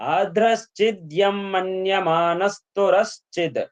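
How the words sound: The phrase flows smoothly with expressive feeling. The reciter understands the meaning. The speaker calls it right. "భావయుక్తంగా మీ ఉచ్చారణ ఉంటుంది"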